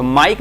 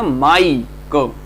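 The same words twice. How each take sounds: First: Said in the usual way. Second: "माइक" stretched slowly on its vowel glide; drawn-out demo. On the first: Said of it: "तो माइक में केवल एक syllable है". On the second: Shown as a demonstration. Teacher showing Mike has one vowel sound, drawn-out demo. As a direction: draw out the "माइ", then close on "क". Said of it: "ऐसे".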